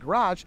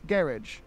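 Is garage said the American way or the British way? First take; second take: American; British. First: The word has an American pronunciation. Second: The word has a British pronunciation. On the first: "here, they don't say math, aluminum, and garage" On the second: "and they say garage"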